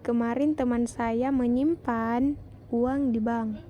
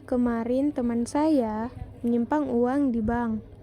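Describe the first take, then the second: First: The word menyimpan is stressed. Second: The word saya is stressed. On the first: "kalimat keempat mendapat tekanan pada kata menyimpan" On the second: "pada kalimat ketiga mendapat tekanan pada kata saya"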